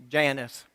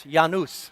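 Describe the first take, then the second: First: Janus said JAN-us, English J; Southern pronunciation. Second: Janus said YAH-noos, with a Y sound; Latin pronunciation. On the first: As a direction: say Janus as JAN-iss, first syllable stressed. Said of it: "here in the South we say". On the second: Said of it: "I looked up the correct pronunciation". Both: Shown as a demonstration.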